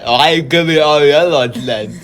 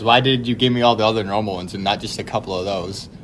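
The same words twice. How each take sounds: First: Slurred words through a numbed mouth, louder; mock droopy-mouthed protest, loose and mushy. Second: Said in the usual way. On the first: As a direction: garble it as if your lips won't work. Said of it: "I was all droopy". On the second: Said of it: "what I said was".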